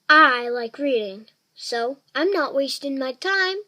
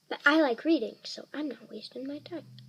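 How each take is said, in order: First: It is said loudly. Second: It is said quietly.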